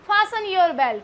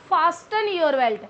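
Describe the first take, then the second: First: The t in fasten is silent. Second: The t in fasten is pronounced. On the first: The speaker calls it right. "T will remain silent here" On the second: The speaker calls it wrong.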